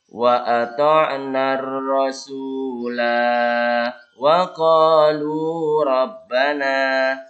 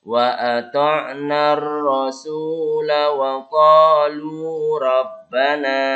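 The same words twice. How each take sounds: First: It stops after rasula with a long vowel. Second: It runs on after rasula with a short vowel. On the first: The reader stops at that point. "Kalau kita baca yang berhenti panjang ya" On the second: The reader continues without stopping. "Tapi kalau kita baca langsung"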